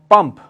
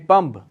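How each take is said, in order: First: The word ends with a p sound. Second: The word ends with a b sound.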